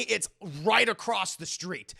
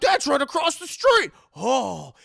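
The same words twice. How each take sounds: First: Said in the usual way. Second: Very high, loud shout of surprise; shouted discovery. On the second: Retold or imitated. Reporter spotting the address on the list, shouting in excitement. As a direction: yell it at the top of the voice.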